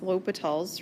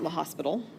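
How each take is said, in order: First: It sounds unlike the English word hospital. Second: It sounds like the English word hospital. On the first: The speaker calls it right. "It's L'Hopital's rule" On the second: The speaker calls it wrong. "it is not La Hospital"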